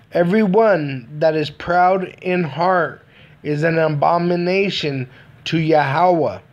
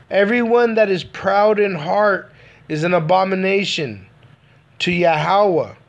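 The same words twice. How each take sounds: The two takes are said the same way.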